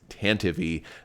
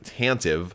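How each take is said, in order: First: The ending does not rhyme with active. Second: The ending rhymes with the word active. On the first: It is the audiobook and radio drama form. "if you listen to audiobooks or the original radio drama, it is Tantive" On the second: It follows the spelling. "should be pronounced kind of the same way that active would be pronounced"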